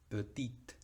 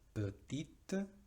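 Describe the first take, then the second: First: The word ends on a T, no vowel. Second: The word ends with a short, weak vowel. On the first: "o con una T" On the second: "Podemos terminar con una E caduca"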